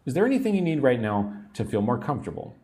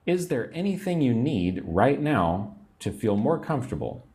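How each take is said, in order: First: Rattled off quickly like a busy nurse; fast natural speed. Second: Said in the usual way. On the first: Shown as a demonstration. Teacher shows learners the quick natural version. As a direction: run it together at real speed. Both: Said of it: "teacher models phrase twice".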